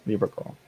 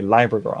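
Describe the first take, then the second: First: Said in the usual way. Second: "Libra" said as LYE-bra with a long i; "Libra" with the first syllable like "lie"; joke pronunciation. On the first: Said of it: "I'm just kidding". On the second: Shown as a demonstration. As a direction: play it off as "LYE-bra girl" jokingly. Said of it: "I'm gonna say Libra girl".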